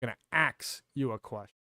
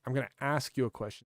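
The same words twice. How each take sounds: First: "ax" said with k before s, like axe; slang "ax" for ask. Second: Said in the usual way. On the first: Shown as a demonstration. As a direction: swap the sounds of ask into "ax". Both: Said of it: "Stuff like that".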